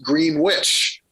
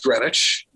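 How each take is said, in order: First: It sounds like 'green witch', with the w sound. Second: It sounds like 'Grenich', with no w sound. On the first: This is how the Ohio town's name is said. The speaker calls it right. "It's pronounced Greenwich" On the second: This is how the English town's name is said. The speaker calls it wrong. "you don't pronounce this town as Greenwich"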